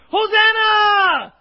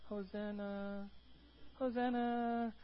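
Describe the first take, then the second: First: Long, full-throated shout, much higher and louder; crowd shout. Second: Soft, slow, half-hearted hosanna; limp quiet hosanna. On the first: Preacher voicing the crowd's roar at Jesus, huge shout. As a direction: shout Hosanna like thousands at once. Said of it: "the Bible says they shouted". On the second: Preacher mocking a timid crowd, limp and quiet. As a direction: mumble it like you don't care. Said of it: "They weren't like". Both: Shown as a demonstration.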